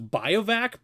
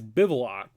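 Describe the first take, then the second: First: The word is said like 'bio-vac'. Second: The word is said like 'biv-oo-ack'. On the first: The speaker calls it wrong. "I always thought it was Biovac" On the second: The speaker calls it right. "but it's Bivouac"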